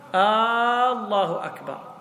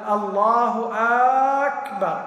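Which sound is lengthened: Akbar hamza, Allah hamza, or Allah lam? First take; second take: Allah hamza; Akbar hamza. First: The opening vowel of Allah is lengthened. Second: The opening vowel of akbar is lengthened. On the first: It becomes a question about whether God is greatest. "إذا مد همزة الله تغير المعنى، صار استفهام" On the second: It becomes a question about whether God is greater. "أو همزة أكبر لو قال الله أكبر أيضا ما يصح"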